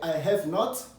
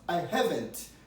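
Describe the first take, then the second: First: Have and not are said as two full words. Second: Have and not merge into one short word. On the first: "forme non contractée" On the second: "forme contractée aussi qui est plus brève, plus simple, plus rapide"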